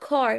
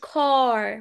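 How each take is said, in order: First: The vowel is said short. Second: The vowel is drawn out long. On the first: The speaker calls it right. "قلت car" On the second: The speaker calls it wrong. "ما قلتش car، ما طولتهاش قوي كده"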